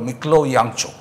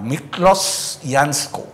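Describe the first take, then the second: First: The surname has a 'ch' sound in the middle. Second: The surname has an 'sk' sound in the middle. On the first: The speaker calls it right. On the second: The speaker calls it wrong.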